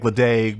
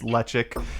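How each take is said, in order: First: The word ends with a hard g sound. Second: The word ends with a k sound. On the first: This is how the spelling leads people to say it. The speaker calls it wrong. "which you think Ledaig" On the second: This is how the name is actually said. The speaker calls it right. "but it's lechik"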